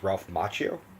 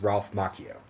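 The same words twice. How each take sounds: First: The surname is pronounced in a non-Italian way. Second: The surname is pronounced in an Italian way. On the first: The speaker calls it wrong. "a lot of people pronounce his name as" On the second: The speaker calls it right. "the proper Italian pronunciation is"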